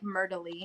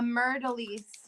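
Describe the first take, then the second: First: The word ends without any S sound. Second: The word ends with an audible S sound. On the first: The speaker calls it right. "you're not probably not supposed to pronounce the S" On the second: The speaker calls it wrong. "It's probably not Myrtleese"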